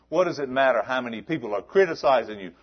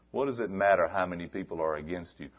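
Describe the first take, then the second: First: The question repeated louder and faster; escalating preacher's question; rising louder. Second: Said in the usual way. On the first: Acted. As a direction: build the question up. Rhetorical build.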